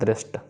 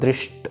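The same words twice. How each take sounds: First: The hissing sound is said as plain 's'. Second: The hissing sound is said as 'sh'. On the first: The speaker calls it right. "सस्सा normal है" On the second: The speaker calls it wrong. "इसको दृष्ट नहीं करना, श नहीं करना"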